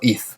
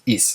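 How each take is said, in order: First: The consonant sounds like th, Spain-style. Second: The consonant sounds like s.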